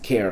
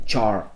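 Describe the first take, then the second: First: The word begins with a k sound. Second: The word begins with a ch sound. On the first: The speaker calls it wrong. "we just don't pronounce it care because that would be that would be weird sounding" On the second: The speaker calls it right. "it just comes off the, the tongue faster"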